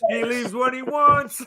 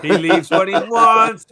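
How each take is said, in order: First: Slow, much higher, with a laugh building; slow high amused repeat. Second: Slow, louder and higher teasing; slow, loud playful tease; amused emphasis. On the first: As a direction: echo the tease in a high amused voice. Repeats the tease, pitch higher still. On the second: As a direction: rib him about his free hours, slowly. Teasing Bobby about leaving whenever. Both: Real, not acted.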